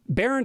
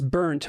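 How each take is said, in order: First: The name does not sound like the word burnt. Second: The name sounds just like the word burnt. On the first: The speaker calls it right. "Barent is good" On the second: The speaker calls it wrong. "people have pronounced it as burnt my whole life"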